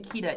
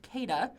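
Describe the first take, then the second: First: "Keda" said as KEE-da, first vowel like "key"; the mistaken "Keda" with an "ee" vowel, KEE-duh; Keda said wrong. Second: "Keda" said as KAY-da, first syllable like "kay"; Keda said right. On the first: Host admitting the name he used in his head: "Keda" as KEE-da. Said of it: "I've been calling it Keda in my head". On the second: Host correcting the name for viewers: "Keda" as KAY-da. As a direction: give "Keda" an "ay" vowel, KAY-duh. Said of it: "It's pronounced Keda". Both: Shown as a demonstration.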